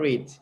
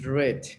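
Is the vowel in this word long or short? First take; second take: long; short. First: The vowel is long, as in 'seed'. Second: The vowel is short, as in 'bed'. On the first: It refers to the present. The speaker calls it wrong. "not read. Read is present" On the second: It refers to the past. The speaker calls it right. "past tense is read"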